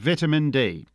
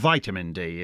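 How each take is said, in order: First: It is said with a British pronunciation. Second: It is said with a non-British pronunciation.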